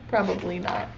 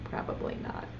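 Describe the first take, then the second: First: Said in the usual way. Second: Voiceless whispered "Probably not."; whispered answer, much softer. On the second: Shown as a demonstration. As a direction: breathe it as a secret. Answers the question again.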